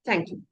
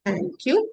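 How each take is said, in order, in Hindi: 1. ये शब्द जल्दी-जल्दी, एक के बाद एक बोले गए हैं। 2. ये शब्द धीरे बोले गए हैं, बीच में रुक-रुक कर। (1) "आपको स्पीड बढ़ानी पड़ेगी।" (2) "या फिर अगर आपने स्लो करा"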